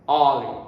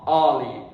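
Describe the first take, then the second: The two takes are said the same way.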